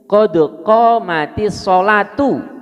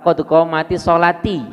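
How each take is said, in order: First: The final word ends with an 'u' vowel. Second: The final word ends with an 'i' vowel. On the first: The speaker calls it right. "ini bacaan yang benar itu" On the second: The speaker calls it wrong.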